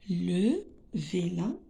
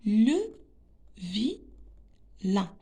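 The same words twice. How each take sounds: First: Said in the usual way. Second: Le, pause, then vilain split as vi-lain; very slow teacher's reading of Le vilain; slow sounding-out. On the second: Shown as a demonstration. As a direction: break vilain into two widely spaced syllables. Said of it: "Je réexplique".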